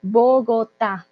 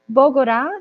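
First: Slow "Bogotá" with pure o vowels and a clear t; careful "Bogotá", stressed on the final a; correct pronunciation. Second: "Bogotá" with the t lost to a tapped r, "Bogorá"; wrong pronunciation. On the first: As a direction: model "Bo-go-TÁ" syllable by syllable. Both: Shown as a demonstration. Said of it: "esa T sí se pronuncia".

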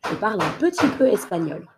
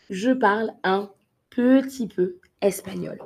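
First: Quick everyday speed; fast natural take. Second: Said in the usual way. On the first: Shown as a demonstration. Teacher giving the sentence at natural speed. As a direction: say it fast like a native.

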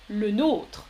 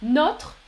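First: "le nôtre" with a long closed o, like "oh". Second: "Notre" with a short open o, like "not". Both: Shown as a demonstration. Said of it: "Attention à la différence de prononciation".

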